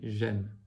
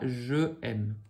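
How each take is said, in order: First: The vowel of je is dropped before aime. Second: The vowel of je is kept before aime. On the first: The speaker calls it right. "mais j'aime" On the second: The speaker calls it wrong. "Ne dites pas je aime"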